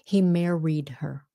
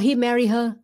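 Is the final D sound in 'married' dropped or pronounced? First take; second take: pronounced; dropped. First: The final D sound of married is pronounced. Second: The final D sound of married is dropped. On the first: The speaker calls it right. "you have to have the D" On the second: The speaker calls it wrong. "a lot of uh, Vietnamese may say, oh"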